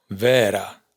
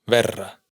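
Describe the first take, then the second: First: "vera" con e larga; vocal larga. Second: "verra" con e corta y rr doble; vocal corta. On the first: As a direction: alarga la e de "vera". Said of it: "E sin tilde larga". (e larga en "vera") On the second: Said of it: "E sin tilde corta". (e corta en "verra") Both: Shown as a demonstration.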